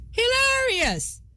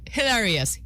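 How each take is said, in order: First: Hilarious, higher. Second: Said in the usual way. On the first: Shown as a demonstration.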